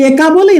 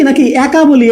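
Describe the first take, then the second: First: একা said with a wide open æ, like "অ্যাকা"; teacher shows the everyday sound of একা; open e demo. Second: একা said with a closed e, like "একা" as written; teacher gives the contrasting reading as a question; closed e demo. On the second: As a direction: say একা as a tight "একা", lips spread. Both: Shown as a demonstration.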